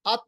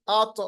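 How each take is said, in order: First: अत with a plain dead त; wrong pronunciation demo. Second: अत with a heavy, bouncing त; qalqalah demo. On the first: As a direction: stop अत short without any echo. (बिना क़लक़ला के ग़लत अत) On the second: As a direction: echo the त at the end of अत. (क़लक़ला के साथ सही अत) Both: Shown as a demonstration. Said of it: "अत नहीं".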